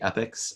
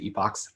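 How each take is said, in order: First: The word is said the American way. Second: The word is said the British way.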